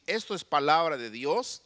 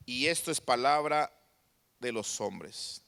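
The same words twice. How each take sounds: First: "Dios" lifted in a rising tune; contrast, God's side. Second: Falling, dismissive drop on "hombres"; contrast, men's side. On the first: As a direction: raise the pitch on "Dios", left open. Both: Shown as a demonstration. Contrast God's word with men's.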